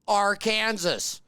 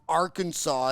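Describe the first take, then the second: First: The word ends with the sound of 'Kansas'. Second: The word ends with a 'saw' sound. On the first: The speaker calls it right. "It's still Arkansas" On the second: The speaker calls it wrong. "it's not Arkansas"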